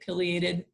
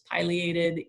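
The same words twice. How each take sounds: First: The first syllable sounds like 'pill'. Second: The first syllable sounds like 'pie'. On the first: This is how people in the north say it. "up here a lot of people say" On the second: This is how people in the south say it. "everybody down there says pileated. ... I love pie way more than I love pills"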